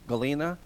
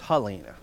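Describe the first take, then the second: First: The name begins with a hard G sound. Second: The name begins with an H sound. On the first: This is the Russian form of the name. "G in Russia" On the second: This is the Polish form of the name. "is Ha in Polish, so it's Halina"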